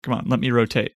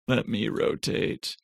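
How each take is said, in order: First: Said in the usual way. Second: Soft, slowed muttered repeat of let me rotate; struggling with the map view, says it again softly and slowly; softer, slower repeat. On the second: Real, not acted.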